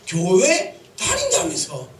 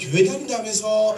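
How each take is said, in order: First: It sounds like a pointed, reproachful challenge. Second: It sounds like a light, casual question. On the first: Someone is rebuking the listener for claiming to attend church without changing. The speaker calls it right. "제목을 정한 것은 교회 다닌다면서 이겁니다" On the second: Someone is simply asking whether the listener attends church. The speaker calls it wrong. "이게 아니라"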